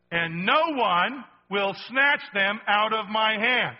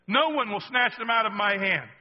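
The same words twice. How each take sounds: First: Drawn out slowly, louder, every word weighted; slow emphatic reading. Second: Said in the usual way. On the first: Shown as a demonstration. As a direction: lean on each word of "And no one will snatch them out of my hand". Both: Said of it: "I love that".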